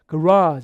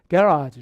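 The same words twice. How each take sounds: First: The stress is on the second syllable. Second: The stress is on the first syllable. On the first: This is the American pronunciation. "강세 뒤쪽에 간다면 이게 이제 미국식" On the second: This is the British pronunciation. "영국식이 되면 강세가 여기 있어요"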